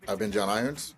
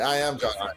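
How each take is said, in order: First: It is said in an unsure, tentative way. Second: It is said in a confident, assertive way.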